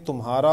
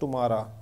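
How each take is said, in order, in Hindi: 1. यह मूल हिंदी लहजे में बोला गया है। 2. यह अंग्रेज़ी लहजे में बोला गया है। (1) "हिंदी में मैं कहूँ तो ये तुम्हारा होगा" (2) "अंग्रेज को बोलूँ तो कहेगा"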